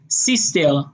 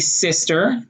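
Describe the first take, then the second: First: It is said in an Israeli accent. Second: It is said in an American accent.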